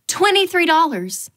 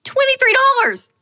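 First: "Twenty-three dollars" calm and even, at normal level; just read the price off the menu; stated price. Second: "Twenty-three dollars" high and louder in disbelief; shocked price. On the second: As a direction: squeal the price in outrage. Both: Shown as a demonstration.

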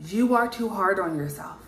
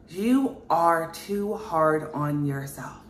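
First: Said in the usual way. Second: Every word dragged out very slowly; slow emphatic repeat. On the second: Acted. Reader repeats her message to the viewer, slowly and with weight. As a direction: lean on each word so it sinks in.

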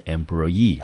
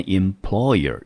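First: Employee with the weight on the last syllable EE; end-stressed employee, modelled for learners; stress on final EE. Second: Employer said with an unstressed -er at the end. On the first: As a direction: hit the EE ending of employee. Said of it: "一个念成是employee". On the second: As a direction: contrast employer by its soundly unaccented -er ending. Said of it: "一个是念employer". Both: Shown as a demonstration.

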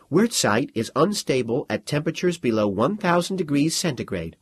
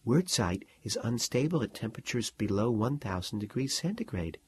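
First: Firm, even and clear aloud; student answering the major aloud, steady. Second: Soft, private explanation; quiet explanation whispered in class; hushed aside. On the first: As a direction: stand and state it plainly to the room. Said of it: "Her voice was steady". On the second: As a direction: murmur the fact to your neighbour. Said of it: "Mary said". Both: A narrator's reading.

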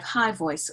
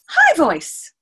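First: Said in the usual way. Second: Put-on loud, high little-girl squeak; put-on high-pitched child voice. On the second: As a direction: pipe up high like an eager child. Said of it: "[name] wants to say, um, high voice".

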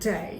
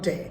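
First: "day" with a full ay glide; correct pronunciation. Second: "day" with a short unglided e; wrong pronunciation. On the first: Teacher modelling day for students, correct pronunciation. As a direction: say "day" gliding from e into i. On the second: Teacher showing what not to say, mispronounced. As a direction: say "day" with a pure Bangla e. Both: Shown as a demonstration. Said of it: "not day".

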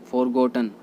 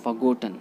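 First: फॉरगॉटन with the r sounded; फॉरगॉटन with full 'for'; common mispronunciation. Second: फॉरगॉटन as 'fuh-GOT-un'; फॉरगॉटन with a weak first syllable; correct pronunciation. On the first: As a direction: say फॉरगॉटन as 'FOR-got-un'. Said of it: "फॉरगॉटन गलत होता है". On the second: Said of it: "right होता है". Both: Shown as a demonstration.

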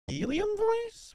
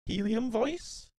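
First: Much higher, slow squeaky helium voice. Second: Said in the usual way. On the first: Real, not acted. Streamer testing a glitchy mic filter, high helium voice. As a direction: pitch it way up like sucking helium.

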